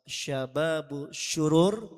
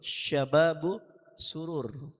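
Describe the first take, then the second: First: The second word begins with a 'sh' sound. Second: The second word begins with an 's' sound. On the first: It means youths of wickedness. The speaker calls it wrong. "Kalau pakai shin, shin bertitik" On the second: It means youths of joy. The speaker calls it right. "Kalau yang artinya girang pakai sin"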